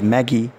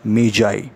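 First: The word is said like 'Maggie'. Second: The word is not said like 'Maggie'. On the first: The speaker calls it wrong. "Normally, we pronounce it as Maggie, but its pronunciation is not Maggie" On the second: The speaker calls it right. "The correct pronunciation of this word is Magi"

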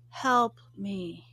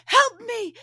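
First: It is said weakly and flatly. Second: It is shouted loudly and urgently.

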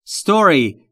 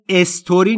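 First: The word starts directly with the s. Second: A vowel sound comes before the s. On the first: The speaker calls it right. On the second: The speaker calls it wrong.

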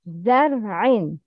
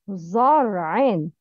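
First: The z sound is light and thin. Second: The z sound is heavy and thick. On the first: The speaker calls it right. "Repeat zar'in. It's za" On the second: The speaker calls it wrong. "but the wrong is zar'in. Not za wrong"

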